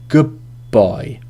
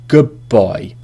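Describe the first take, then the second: First: The d of 'good' turns into a b sound. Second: The d of 'good' turns into a b sound.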